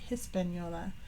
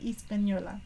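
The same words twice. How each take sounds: First: The word begins with an H sound. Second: The word begins with a vowel sound. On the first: The speaker calls it wrong. "I always kind of pronounced it with Hispaniola" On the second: The speaker calls it right. "no H. ... I'll try to call it Hispaniola"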